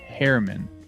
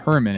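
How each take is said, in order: First: The first syllable sounds like 'hair'. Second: The first syllable sounds like 'her'. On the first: The speaker calls it right. "it's Herman. Hairman" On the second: The speaker calls it wrong. "It's not Herman"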